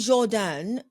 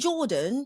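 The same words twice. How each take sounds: First: The name is said the original, less familiar way. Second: The name is said the common, familiar way. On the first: This is the actual pronunciation of his name. "if you hear me say Jordan" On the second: This is how most people say his name. "everybody else is going to call him Jordan"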